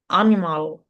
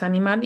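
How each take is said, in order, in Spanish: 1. Tiene acento inglés con una L arrastrada. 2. Tiene acento español con una L suave. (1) "En inglés como que en la L la arrastran mucho, es como animal" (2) "en español ya sabemos que es animal y ya está. Con una L más simple"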